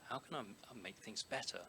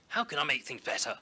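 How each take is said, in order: First: It is said in a gentle, kind tone. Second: It is said in a harsh, critical tone. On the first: The speaker calls it right. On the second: The speaker calls it wrong.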